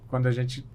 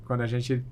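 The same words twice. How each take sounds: The two takes are said the same way.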